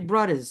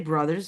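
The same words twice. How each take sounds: First: It is said in a Brooklyn accent. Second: It is said in a plain, standard accent. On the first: "Brooklyn pronounces. ... you say brothers" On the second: "You don't say brothers"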